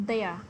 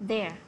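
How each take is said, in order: Both takes have the same delivery.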